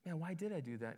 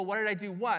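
First: Softer, musing to oneself; quiet, pensive self-questioning; thinking aloud. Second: Imagined baffled question back; mildly puzzled, punching the last word; puzzled comeback. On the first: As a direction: act out pausing to wonder at yourself. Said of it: "stop and think and go". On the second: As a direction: act out being caught off guard by the question. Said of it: "And you go". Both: Acted.

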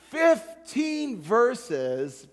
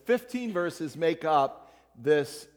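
First: "fifteen verses" stretched out very slowly; slow, weighty stress on "fifteen verses"; slow emphatic stress. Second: Said in the usual way. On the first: Shown as a demonstration. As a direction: lean on "fifteen", drawing each word out.

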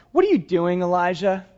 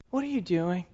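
First: Said in the usual way. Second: Softer, hushed second asking; gentle repeat. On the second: Retold or imitated. God gently asks the discouraged prophet again, hushed and soft. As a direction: ask it again gently, almost under the breath.

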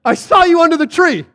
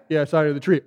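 First: High, loud mock amazement; amazed exclamation. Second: Low, offhand remark; casual. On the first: Preacher marvels that this convinced Nathaniel, exclaiming. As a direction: cry it like a huge revelation. Amazed at how little it took. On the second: Retold or imitated. Jesus answers the amazed Nathaniel, casually. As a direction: toss it off as nothing special.

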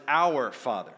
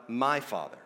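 First: "our" stressed, "Father" falling away. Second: "my" stressed, "Father" dropping off. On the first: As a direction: hit the word "our". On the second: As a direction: lean on the word "my". Contrasts my with our Father. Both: Shown as a demonstration.

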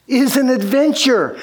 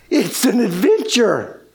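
First: Excited realization. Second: Dawning wonder. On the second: Realization after a gasp. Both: Retold or imitated.

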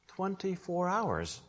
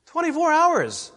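First: Soft, slow and measured; hushed. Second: High-pitched, forceful repeat; incredulous exclamation. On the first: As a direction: let the answer drop quietly, drawn out. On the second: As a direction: throw it out high in disbelief. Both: Real, not acted. Repeats answer for rhetorical effect.

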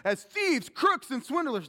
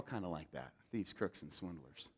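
First: Loud. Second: "Thieves, crooks, and swindlers" said low and soft, almost a whisper; hushed. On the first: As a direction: call out "as thieves, crooks, and swindlers" high and loud. Repeats list, then quiet take. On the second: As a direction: let the list sink to a confession. Same list turned inward, hushed. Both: Shown as a demonstration.

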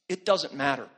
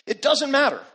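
First: Said in the usual way. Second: It doesn't matter thrown out loud and high; a preacher's rising cry driving the point to the crowd; preaching shout. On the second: Acted. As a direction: hammer the refrain home from the pulpit. Repeated refrain, second take shouted.

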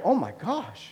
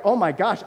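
First: Falling, deflated "Oh my gosh" with a dropping "oh"; exasperated parent sigh. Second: Rising, surprised "Oh my gosh" with a lifted "oh"; shocked parent gasp. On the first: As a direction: say it like a stumped, worn-out dad. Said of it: "And I was like". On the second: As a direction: gasp it out, eyes wide at the four-year-old. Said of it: "you're like". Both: Retold or imitated.

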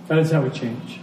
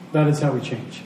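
The two takes are said the same way.

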